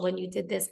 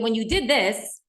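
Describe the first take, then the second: First: Soft, low-key demonstration of gentle phrasing; modelling a kind, understated tone; palatable I-words delivery. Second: Firm, pointed mock accusation; demonstrating a harsher, accusing delivery; accusing you-words. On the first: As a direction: say it gently, without blame. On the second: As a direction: put the blame on the listener, firmly. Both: Shown as a demonstration. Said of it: "That comes across much differently".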